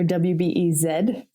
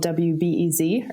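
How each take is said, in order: First: The last letter is said the international way. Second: The last letter is said the American way.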